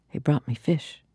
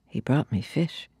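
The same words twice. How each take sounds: The two takes are said the same way.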